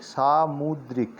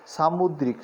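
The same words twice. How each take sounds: First: "सामुद्रिक" slowly broken into "saa-mud-rik"; syllable by syllable. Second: Said in the usual way. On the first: Shown as a demonstration. Teacher sounds out सामुद्रिक for learners, slow and syllabled. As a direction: draw out each syllable of "सामुद्रिक".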